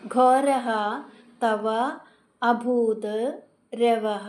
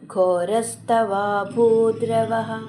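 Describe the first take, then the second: First: Each word is said separately with breaks. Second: The words are joined into one flowing sound.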